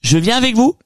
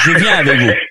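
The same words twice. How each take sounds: First: It is said with a high intonation. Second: It is said with a low intonation.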